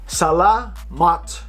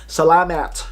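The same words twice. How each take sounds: First: The last vowel is an open ah sound. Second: The last vowel sounds like the a in apple. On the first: The speaker calls it right. "if you want authenticity, salamat" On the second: The speaker calls it wrong. "Just because it says M A T, don't pronounce it as salamat"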